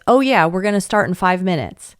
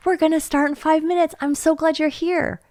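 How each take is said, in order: First: Offhand, half-listening "Oh yeah"; volunteer brushing off a child; distracted brush-off. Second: Higher, friendly and engaged; volunteer welcoming a child gladly; warm and attentive. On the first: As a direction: answer without looking up from the phone. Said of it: "they don't answer it like this". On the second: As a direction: say it looking the child in the eye. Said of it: "You see the difference?". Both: Shown as a demonstration.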